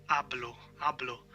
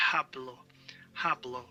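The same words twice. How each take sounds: First: "hablo" with silent H, starting on A; correct pronunciation. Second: "hablo" with a breathed English H; mistaken pronunciation. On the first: Shown as a demonstration. Teacher showing how it is in Spanish, H mute in "hablo". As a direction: drop the H in "hablo". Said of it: "So the H is mute". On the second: Retold or imitated. Teacher imitating learners' mistake, H sounded in "hablo". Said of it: "so people logically think it's ha".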